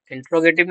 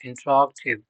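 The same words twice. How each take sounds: First: इंटरोगेटिव with a full "gay" syllable, in-tro-GAY-tiv; wrong pronunciation. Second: इंटरोगेटिव squeezed to "in-TROG-tiv"; correct pronunciation. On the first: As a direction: stretch इंटरोगेटिव out to include a clear "ge-ti". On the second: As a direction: say इंटरोगेटिव with the "ga" swallowed. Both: Shown as a demonstration. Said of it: "इंटरोगेटिव नहीं".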